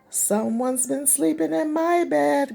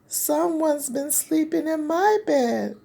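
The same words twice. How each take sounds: First: It is said in a deep growling voice. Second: It is said in a high squeaky voice.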